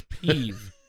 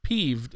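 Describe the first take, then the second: First: "peeve", drawn out, ending on the v; peeve without d. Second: "peeved", ending on a d sound; peeved with final d. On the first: Co-host checking the writer's surname, slow "peeve" ending on v. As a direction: say "peeve" slowly, no d on the end. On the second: Co-host checking the writer's surname, "peeved" with final d. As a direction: say "peeved" with the d on the end. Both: Shown as a demonstration. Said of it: "That wasn't peeved, it was peeve".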